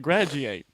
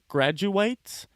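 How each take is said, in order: First: The word is pronounced casually, with sounds run together. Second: The word is pronounced carefully, every sound clear. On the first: The speaker calls it wrong. "when it comes out of my mouth naturally" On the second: The speaker calls it right. "I'm gonna pronounce it"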